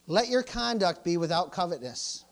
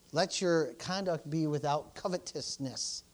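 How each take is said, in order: First: Said in the usual way. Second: "covetousness" slowly and distinctly pronounced; slow reading, every syllable of "covetousness" given room; careful enunciation. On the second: Real, not acted. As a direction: enunciate "covetousness" with deliberate care. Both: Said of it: "I'm enunciating".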